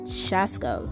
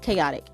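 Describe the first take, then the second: First: It starts with a 'sh' sound, like 'shaskos'. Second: It is said in the usual way, 'kay-OT-ic'. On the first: The speaker calls it wrong. "I said Shaskos, I think is what I said" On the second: The speaker calls it right. "But it's chaotic"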